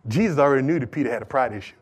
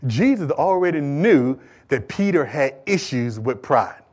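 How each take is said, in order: First: Low, soft and quick; quick delivery. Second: Slow, low-key and measured; slow deliberate restatement. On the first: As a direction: toss the point off rapidly. First quick take of repeated point. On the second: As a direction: bring the point round slowly. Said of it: "bring this thing back around for you". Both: Real, not acted.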